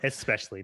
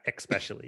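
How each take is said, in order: First: The word begins with an es sound. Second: The word begins with an ex sound. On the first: The speaker calls it right. "Or especially" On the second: The speaker calls it wrong. "not especially. It's not, there's no X there"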